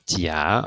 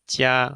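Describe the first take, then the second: First: The pitch rises from mid to high. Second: The pitch stays high and level throughout. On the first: It means cheek. "so in the second tone, we have" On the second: It means good. "we have in the first tone"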